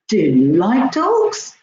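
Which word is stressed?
do. The stress falls on the word do. The speaker did not know whether the listener likes dogs. "Oh, I wasn't sure. I didn't know that"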